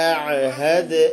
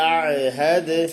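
Both takes have the same delivery.

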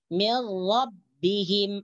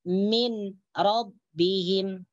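First: The n merges into the following r. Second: The n is heard separately before r. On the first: The speaker calls it right. "Nun matinya teruskan dimasukkan ke dalam huruf ro" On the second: The speaker calls it wrong. "jangan dibaca"

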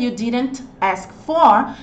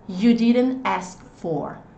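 First: The t in didn't is pronounced. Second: The t in didn't is dropped. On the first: The speaker calls it wrong. "só que você percebe que ele não fica tão fluido" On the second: The speaker calls it right. "Percebe que eu não pronunciei o T aqui?"

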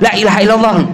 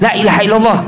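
The two takes are said the same way.

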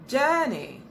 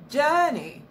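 No difference in how they are said.

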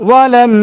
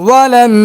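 No difference in how they are said.

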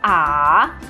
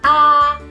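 First: The pitch dips down, then rises again. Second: The pitch stays high and level throughout. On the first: "The third tone starts at a mid-low pitch, then goes down and rises again" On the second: "The first tone is a high and flat tone"

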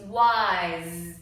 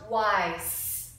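First: The word ends with a buzzing z sound. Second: The word ends with a hissing s sound. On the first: The speaker calls it right. "like a Z" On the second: The speaker calls it wrong. "Don't say S. It's not wise"

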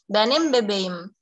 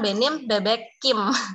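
First: The k is softened into a soft g. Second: The k is kept as a hard k. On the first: The speaker calls it right. "K ini diubah menjadi yumushak G untuk penghalusannya" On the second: The speaker calls it wrong. "Bukan benim bebekim"

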